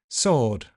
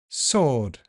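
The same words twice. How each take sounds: No difference in how they are said.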